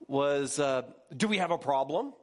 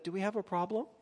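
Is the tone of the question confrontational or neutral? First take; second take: confrontational; neutral. First: It is asked in a hostile, confrontational tone. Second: It is asked in a plain, neutral tone. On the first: The asker is challenging the listener. "Notice I even read in the tone" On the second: The asker is simply checking in. "she might have said"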